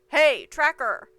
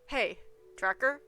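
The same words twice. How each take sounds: First: It is yelled loudly. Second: It is said at a normal, quieter volume.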